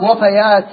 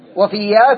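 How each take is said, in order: First: It is said as wafayat, rhyming with fatayat. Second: It is said as wafiyyat, with a doubled y. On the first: It is the plural of a word meaning death. The speaker calls it right. "فإذن الصواب وفيات جمع وفاة" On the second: It is the plural of a word meaning loyal woman. The speaker calls it wrong. "وفيات جمع وفية"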